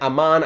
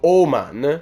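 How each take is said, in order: First: The first vowel sounds like 'ah'. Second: The first vowel sounds like 'oh'. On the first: The speaker calls it wrong. "So I was saying Amen, Aman, I wasn't sure what it was, but no" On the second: The speaker calls it right. "the A in Swedish actually has the O sound"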